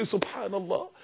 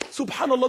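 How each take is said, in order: First: Low, soft murmur of amazement; quietly marvelling to oneself; hushed wonder. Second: Said in the usual way. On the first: Retold or imitated. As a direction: say it under the breath in awe. Hushed reaction, then said again normally.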